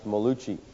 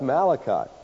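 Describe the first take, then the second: First: The name is said with a middle 'loo' sound. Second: The name is said with a middle 'la' sound. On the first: The speaker calls it wrong. "as one man has pronounced this" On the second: The speaker calls it right. "Oh, that's Malachi"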